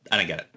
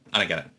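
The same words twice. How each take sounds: The two takes are said the same way.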